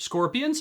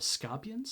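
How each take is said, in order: First: High-pitched rising question; startled realisation. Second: Soft, higher puzzled question; mumbling to himself. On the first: Gorath finally understanding the trapper's warning, startled question. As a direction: say it as the word suddenly dawns on you. Realises what the word was. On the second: Gorath puzzling over the trapper's word, soft questioning mumble. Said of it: "Gorath was mumbling to himself". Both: Acted.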